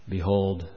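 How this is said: It is said flat, bland and monotone. The speaker calls it wrong. "a bland, boring, monotone"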